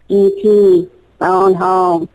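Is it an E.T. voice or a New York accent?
E.T. voice. It is said in an E.T. impression voice.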